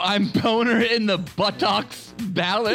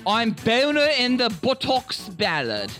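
First: It is said in his normal accent. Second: It is said in a British accent.

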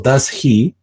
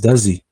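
First: Each word is pronounced separately and clearly. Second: The words run together into one new sound. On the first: The speaker calls it wrong. "si estás esperando does he" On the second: The speaker calls it right. "pues no, es does he"

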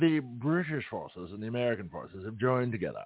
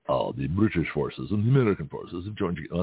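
First: It is spoken with a British-sounding accent. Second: It is spoken with a Russian-sounding accent. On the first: "I'll have to work on my deep British voice" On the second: "That's more like a Russian accent"

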